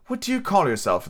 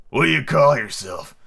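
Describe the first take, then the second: First: Said in the usual way. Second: Slow, sweet storybook creature voice; soft, sweet fawn. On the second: A narrator's reading. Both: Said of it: "had a soft, sweet voice".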